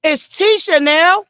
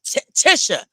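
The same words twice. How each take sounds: First: Tisha said slowly with a long ee, TEE-sha; correct Tisha. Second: Tisha with a short i, TIH-sha, after a false start; mock the wrong TIH-sha; mispronounced Tisha. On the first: Shown as a demonstration. Correcting a wrong pronunciation, Tisha as TEE-sha. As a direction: stress the right TEE-sha. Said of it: "not Tisha". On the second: Imitating Neil Fletcher's wrong Tisha, short TIH-sha. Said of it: "Even Neil Fletcher say her name".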